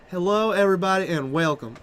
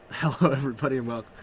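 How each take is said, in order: First: Lightly voiced caster greeting, Evan Irwin style; Evan Irwin impression. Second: Hushed half-voiced Evan Irwin attempt; quiet first try. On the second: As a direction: breathe the greeting in a half-hearted Evan Irwin voice. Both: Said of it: "any more Evan Irwin impressions".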